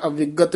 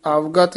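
First: "ਅਵਿਗਤ" with a short i after the ਵ; three syllables in "ਅਵਿਗਤ", a-vi-gat; wrong inserted i. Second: "ਅਵਗਤ" with no i after the ਵ; two syllables in "ਅਵਗਤ", av-gat; correct pronunciation without i. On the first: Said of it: "ਅਵਿਗਤ ਨਹੀਂ ਕਹਿਣਾ". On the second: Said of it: "ਅਵਗਤ ਹੀ ਉਚਾਰਨ ਕਰਨਾ". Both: Shown as a demonstration.

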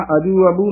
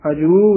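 First: ਅਜੂ ਅਬੂ hurried, final oo cut short; mispronunciation demo. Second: ਅਜੂ with a long final oo; correct pronunciation. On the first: Teacher warns reciters, short-vowelled ਅਜੂ ਅਬੂ. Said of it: "ਅਜੂ ਅਬੂ ਨਹੀਂ ਕਹਿਣਾ ਹੈ". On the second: Teacher models for reciters, long-vowelled ਅਜੂ. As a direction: lengthen the last vowel of ਅਜੂ. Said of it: "ਅਜੂ ਉਚਾਰਨ ਕਰਨਾ". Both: Shown as a demonstration.

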